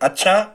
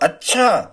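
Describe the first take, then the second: First: It is said with a plain, neutral tune. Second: It is said with a questioning tune. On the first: The speaker simply acknowledges something. "ये सामान्य अच्छा था" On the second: The speaker is asking for confirmation. "प्रश्नवाचक होगा"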